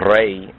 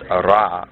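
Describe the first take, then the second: First: The name ends in an 'ay' vowel. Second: The name ends in an 'ah' vowel. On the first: The speaker calls it right. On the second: The speaker calls it wrong.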